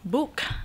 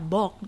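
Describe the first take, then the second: First: The vowel is the English 'oo' sound. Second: The vowel is a plain Indonesian 'o' sound. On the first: "B O O K dibaca apa? Book" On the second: "masih bacanya sesuai ejaan bahasa Indonesia"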